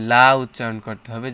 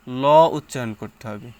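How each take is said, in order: First: Thin, open "লা" standing out from the sentence; light lam. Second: Dark, full "ল" standing out from the sentence; heavy lam. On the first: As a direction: hit "লা" loud with an open a. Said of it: "যদি জের হয়". (জোর দিয়ে পাতলা "লা") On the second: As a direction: hit "ল" loud with a rounded o. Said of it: "যদি জবর হয়". (জোর দিয়ে মোটা "ল") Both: Shown as a demonstration.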